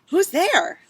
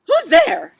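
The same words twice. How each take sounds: First: It sounds soft and gentle, like Baby. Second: It sounds grumpy and disgruntled, like Eugenia.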